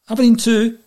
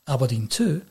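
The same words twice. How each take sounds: First: The tone of voice sounds upbeat. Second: The tone of voice sounds downbeat. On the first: The team has won the match. "they've won" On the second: The team has lost the match. "well, they've lost"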